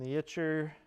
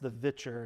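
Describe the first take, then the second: First: The name starts with a W sound. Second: The name starts with a V sound. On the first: The speaker calls it wrong. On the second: The speaker calls it right.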